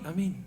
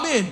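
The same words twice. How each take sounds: First: It is said weakly and quietly. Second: It is said loudly and eagerly.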